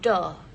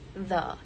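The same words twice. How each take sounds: First: The first sound is a stopped 'd'-like sound. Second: The first sound is a soft hissing 'th'. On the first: The speaker calls it wrong. "the is replaced with the dental plosive the sound" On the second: The speaker calls it right. "the received pronunciation for the is the"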